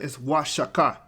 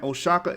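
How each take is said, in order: First: The name begins with a 'wa' sound. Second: The name begins with a plain 'o' sound. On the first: "it stands for Wa. You make the Wa sound" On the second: "when you see a O in a Spanish codice"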